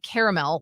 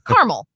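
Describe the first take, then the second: First: It is said the Southern way, following the spelling. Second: It is said the way people in Cleveland say it. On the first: This is how the word is said in the South. "moving to the South, I hear people say caramel, which does make more sense with the spelling" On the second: This is how the word is said where the speaker grew up. "growing up in Cleveland, that's just what you call it"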